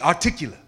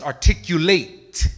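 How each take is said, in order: First: The word is slurred with sounds dropped. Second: The word is enunciated fully and clearly. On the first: The speaker calls it wrong. "But you'll say articulate" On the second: The speaker calls it right. "It's articulate"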